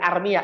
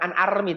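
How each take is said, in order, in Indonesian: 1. Kata ini berakhir dengan bunyi '-ya' yang ditambahkan. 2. Kata ini berakhir dengan bunyi 'i' biasa. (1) "tapi armia" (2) "bukan an armi"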